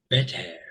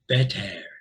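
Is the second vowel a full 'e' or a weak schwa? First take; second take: full e; full e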